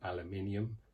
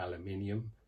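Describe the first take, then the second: First: It is said with a British pronunciation. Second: The same.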